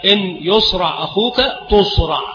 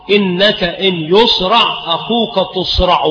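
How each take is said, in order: First: تصرع said tuṣraʿ, no final vowel; jussive ending. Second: Slow verse, تصرع ending tuṣraʿu; recited line with damma closing تصرع; nominative ending. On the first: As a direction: stop تصرع on the bare ʿayn. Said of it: "فهو ضعيف". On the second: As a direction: sound a long final u on تصرع. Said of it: "وما ورد من رفع الجواب". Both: Shown as a demonstration.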